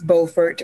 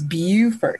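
First: The first syllable does not sound like 'beautiful'. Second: The first syllable sounds like the start of 'beautiful'. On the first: This is the North Carolina way of saying it. "if you're in North Carolina, it's Beaufort" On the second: This is the South Carolina way of saying it. "when you're down here in South Carolina, it's Beaufort"

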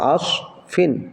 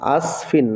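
First: The s sound is heavy, with a full mouth. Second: The s sound is light, with a relaxed mouth. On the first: The speaker calls it right. "সদ উচ্চারণ করতে গেলে মুখ ভুল হয়, উচ্চারণটা হবে আস ফিন" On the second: The speaker calls it wrong. "আস ফিন না"

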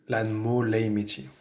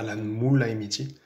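First: The vowel in moo is long. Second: The vowel in moo is short. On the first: The speaker calls it right. "On dit ... il y a bien deux O à mot" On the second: The speaker calls it wrong. "on ne dit pas"

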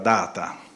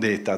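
First: The first vowel sounds like 'ah' in father. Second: The first vowel sounds like 'ay' in day. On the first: The speaker calls it right. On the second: The speaker calls it wrong. "non data"

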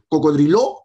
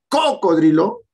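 First: The stress is on the last syllable. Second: The stress is on the first syllable. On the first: "sería una aguda" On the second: "si fuera la cuatro"

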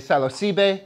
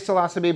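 First: It is pronounced the way Mexicans say it. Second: It is pronounced the way locals here say it. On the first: "in Mexico, they say psilocybe" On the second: "Here, I say psilocybe"

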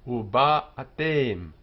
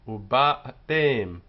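Both takes have the same delivery.

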